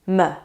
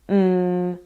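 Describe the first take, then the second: First: The consonant has a short vowel after it. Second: The consonant is held alone with no vowel. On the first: The speaker calls it wrong. "instead of m" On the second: The speaker calls it right. "let's say mm"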